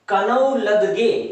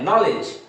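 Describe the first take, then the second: First: The K, W and D letters are all sounded. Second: The K, W and D letters are left silent. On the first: The speaker calls it wrong. "अगर हम के, डब्ल्यू और डी का भी उच्चारण करें तो ये क्या हो जाएगा" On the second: The speaker calls it right. "जबकि इसे पढ़ते क्या है"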